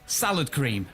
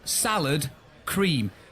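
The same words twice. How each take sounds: First: The two words run together as one unit. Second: The two words are said separately with a break. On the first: "to me, it's salad cream" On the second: "not salad cream ... it's cream for salads"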